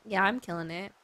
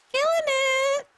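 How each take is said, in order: First: Said in the usual way. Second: Very high, loud, held-out squeal; silly high squeal. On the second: Pretend. Streamer boasting of killing it, silly high squeal. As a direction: squeal it out in mock triumph.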